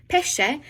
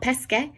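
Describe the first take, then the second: First: "pesce" said PEH-sheh, pitched higher. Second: "pesche" said PES-keh, with s and k; wrong hard-k reading. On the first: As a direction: correct it to "pesce" with a sh sound. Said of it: "sound like a sh". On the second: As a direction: show the mistake: "pesche" with a hard k. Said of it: "not pesche". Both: Shown as a demonstration.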